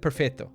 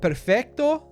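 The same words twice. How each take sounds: First: The C sound is left out. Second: The C sound is clearly pronounced.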